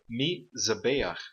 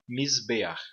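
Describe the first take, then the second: First: A short vowel sound follows the z. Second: No vowel sound follows the z. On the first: The speaker calls it wrong. "Em vez de pronunciar a palavra" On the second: The speaker calls it right. "nós pronunciamos a palavra como"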